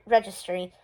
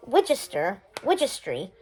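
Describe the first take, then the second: First: "registry" said properly with a clear R; careful correction. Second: "Wigistry" with a W for the R; mispronounced registry. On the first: Shazne correcting herself to say "registry" properly. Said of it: "she clarifies". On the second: Shazne mangling the word "Wigistry" at the party planning. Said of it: "A magical wish wi-, registry," she clarifies". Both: Acted.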